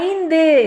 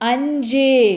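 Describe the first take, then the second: First: The middle sound is a dental 'nd' cluster. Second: The middle sound is a palatal 'nj' cluster. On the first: This is the written, formal form. "அதே மாதிரி ஐந்து" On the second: This is how people normally say it. "இதை வந்து எப்படி சொல்லுவோம்? அஞ்சு"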